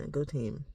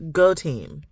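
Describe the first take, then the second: First: Soft little "go team" after a laugh; half-hearted cheer. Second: "go team" said out firmly and louder; a firm little rally cry; louder cheer. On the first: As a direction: cheer quietly, almost to yourself. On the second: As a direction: cheer it out loud. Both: Real, not acted.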